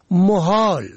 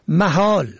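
First: محال with "o" after the م, "mohol"; rounded short vowel opening محال; first vowel damma. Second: محال with "a" after the م, "mahol"; first vowel fatha. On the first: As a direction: say محال as mo-HOL. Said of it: "به ضم اول". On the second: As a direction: say محال as ma-HOL. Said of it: "به فتح اول". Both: Shown as a demonstration.

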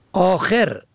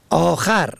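First: آخر said as akher, e on the second syllable; kasra on second letter. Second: آخر said as akhar, a on the second syllable; fatha on second letter. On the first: Teacher reading homographs aloud, akher with kasra. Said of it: "به کسر دوم". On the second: Teacher reading homographs aloud, akhar with fatha. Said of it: "به فتح دوم". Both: Shown as a demonstration.

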